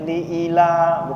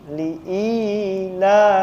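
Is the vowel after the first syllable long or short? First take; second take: short; long. First: The vowel is cut short. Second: The vowel is held long. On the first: The speaker calls it wrong. "Kadang orang baca pendek" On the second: The speaker calls it right. "bukan liila tapi li'i"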